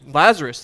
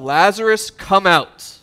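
First: Said in the usual way. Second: Loud summons of a dead friend; calling out loud. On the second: Acted. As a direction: call him out of the grave with authority. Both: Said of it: "Jesus yells out".

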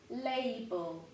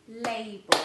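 First: Said in the usual way. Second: Label said again much louder, falling; label, louder and final; louder label with falling tune; repeated louder. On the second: Shown as a demonstration. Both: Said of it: "two more hiding over here".

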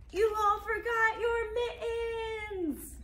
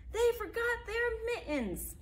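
First: High, very slow wailing complaint; roaring grumble. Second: High, slow rumbling grumble; grumbling bus driver. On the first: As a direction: drag it out in mock despair. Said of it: "mumbled and grumbled and rumbled and roared". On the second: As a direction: complain like a fed-up driver. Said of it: "mumbled and grumbled and rumbled". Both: Acted.

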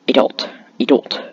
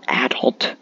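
First: "adult" with a weak, unstressed first vowel; usual pronunciation. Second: "adult" with stress on the first syllable; rejected pronunciation. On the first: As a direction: say "adult" as uh-DULT, stress at the end. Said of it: "It was always adult". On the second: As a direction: say "adult" as AD-ult, open a as in cat. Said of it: "Not adult". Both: Shown as a demonstration.

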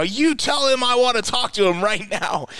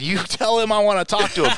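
First: Much higher, drawn-up insistent demand; retold angrier demand. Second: Higher-pitched insistent demand; retold angry demand. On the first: Caller insisting after the secretary refuses, pissed and more forceful. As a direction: repeat the order, pushing harder. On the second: Caller to secretary about the boss, pissed but contained. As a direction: imitate yourself pressing a secretary, annoyed. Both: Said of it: "I'm pissed".

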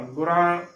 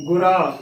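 First: ਗੁਰਾ with nasalised final aa; wrong pronunciation. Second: ਗੁਰਾ loud, ending in pure oral aa; correct pronunciation. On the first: Teacher showing the mistake, ਗੁਰਾ nasalised. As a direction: let the end of ਗੁਰਾ go into the nose. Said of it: "ਗਲਤ ਉਚਾਰਨ ਹੋਏਗਾ". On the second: Teacher showing the right reading, ਗੁਰਾ without nasal. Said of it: "ਰਾਰੇ ਨੂੰ ਕੰਨਾ ਰਾ". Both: Shown as a demonstration.

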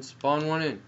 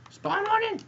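First: Said in the usual way. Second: Very high, loud squeal; squealed demand. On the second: Real, not acted. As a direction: shriek it at the game impatiently. Urging the game, high squeal.

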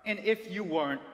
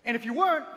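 First: Said in the usual way. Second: Sudden loud, higher burst; loud emphatic. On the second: Acted. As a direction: punch the opening hard. Dramatic restart of the warning.

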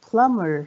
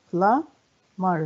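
First: Said in the usual way. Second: "Plumber" split as plum, pause, ber; syllable by syllable. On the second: Shown as a demonstration. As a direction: count out both parts of "Plumber". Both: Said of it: "كم عدد المقاطع".

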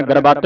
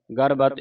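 First: ਗਰਬਤ with a long final vowel, "garbaat"; mistaken reading. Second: ਗਰਬਤ with short vowels, "garbat"; soft pronunciation. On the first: Teacher warning students of a misreading, ਗਰਬਤ as "garbaat". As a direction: stretch ਗਰਬਤ open to "gar-baat". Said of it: "ਗਰਬਤ ਨਹੀਂ ਪੜ੍ਹਨਾ". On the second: Teacher showing students the reading, ਗਰਬਤ softly as "garbat". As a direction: say ਗਰਬਤ lightly, short final "a". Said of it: "ਇਹ ਪੋਲਾ ਉਚਾਰਨ ਕਰਨਾ". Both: Shown as a demonstration.

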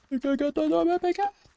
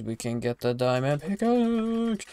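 First: Much higher, fast excited squeal. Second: Said in the usual way. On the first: Real, not acted. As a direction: squeal it out with glee. Excited discovery, then repeated squeal.

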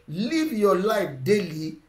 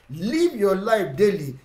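Both takes have the same delivery.

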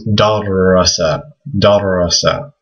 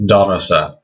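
First: Darasa with the r held longer, doubled. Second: Plain single r, darasa; Arabic word. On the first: Teacher showing the shadda on darasa. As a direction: linger on the r in darasa. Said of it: "put a shadda on the ra". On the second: Teacher sounding out darasa for students. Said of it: "give an example". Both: Shown as a demonstration.

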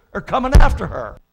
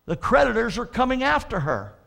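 First: Loud warning. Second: Said in the usual way. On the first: Acted. Preacher repeats warning about creditors.

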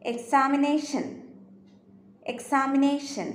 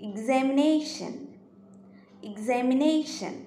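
First: എക്സാമിനേഷൻ with a plain "eks" at the start; everyday "eks" start on എക്സാമിനേഷൻ, unvoiced k-s sound; common pronunciation. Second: എക്സാമിനേഷൻ slowly, opening with a buzzing "ig-z"; careful slow "igz" start on എക്സാമിനേഷൻ; correct pronunciation. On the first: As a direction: say എക്സാമിനേഷൻ as "eks-aa-mi-NAY-shun". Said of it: "Normally നമ്മൾ ആ word pronounce ചെയ്യുന്നത്". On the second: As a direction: say എക്സാമിനേഷൻ as "ig-zam-i-NAY-shun". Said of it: "അതിൻ്റെ correct ആയിട്ടുള്ള pronunciation". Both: Shown as a demonstration.

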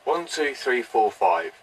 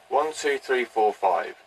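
No difference in how they are said.

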